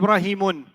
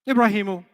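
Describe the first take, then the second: First: The name ends with an added n sound. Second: The name ends on a plain u vowel. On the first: The name is treated as an Arabic name that takes tanween. The speaker calls it wrong. "you cannot say Ibrahimun. Can't do it. Not allowed" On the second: The speaker calls it right. "They have to stay light"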